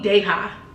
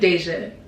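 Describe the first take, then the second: First: The middle consonant is a breathy H sound. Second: The middle consonant is a soft J sound. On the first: The speaker calls it wrong. "He called me Deha" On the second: The speaker calls it right. "My name is Deja"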